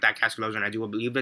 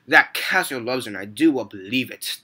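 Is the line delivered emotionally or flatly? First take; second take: flatly; emotionally. First: The line is delivered flatly, without emotion. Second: The line is delivered with strong emotion.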